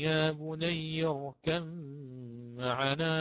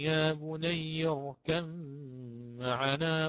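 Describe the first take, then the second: First: The b merges into the following m. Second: The b merges into the following m.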